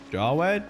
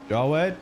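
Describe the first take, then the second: No difference in how they are said.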